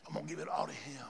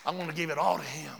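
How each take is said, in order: First: Whispered, very soft. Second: Quick, low statement. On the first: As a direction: breathe it as a whisper. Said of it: "repeated softer". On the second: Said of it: "repeated as whisper". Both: Real, not acted.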